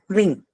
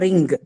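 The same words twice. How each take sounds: First: It ends with a single ng sound. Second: It ends with an n followed by a g. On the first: The speaker calls it right. "It's actually ng" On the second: The speaker calls it wrong. "not n and g combination"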